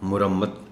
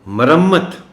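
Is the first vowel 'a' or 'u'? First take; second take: u; a. First: The first vowel is 'u'. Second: The first vowel is 'a'. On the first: The speaker calls it wrong. "इसको बोला आमतौर पर मुरम्मत जाता है" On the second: The speaker calls it right. "मीम पर ज़बर है, पेश नहीं"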